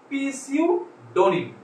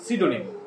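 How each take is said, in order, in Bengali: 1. শব্দটি p দিয়ে শুরু হয়। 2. শব্দটি p ছাড়া শুরু হয়। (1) "প্রথমে পি দেয়া আছে, তাহলে এটা আমাদের কিভাবে শিখতে হবে?" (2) "মানে হচ্ছে"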